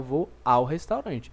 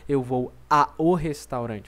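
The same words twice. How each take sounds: First: The two vowels in 'ao' blend into one. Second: The two vowels in 'ao' are said separately. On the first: The speaker calls it right. "Não, você fala" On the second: The speaker calls it wrong. "você não diz, ... Você não separa essas duas letras"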